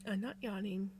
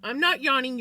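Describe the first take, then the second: First: Sigh, then a soft, mumbled denial; half-asleep, breathed out. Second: Louder, with not punched; stress on not. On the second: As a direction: insist on not, mock-indignant. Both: Real, not acted. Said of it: "Somebody else is making me yawn".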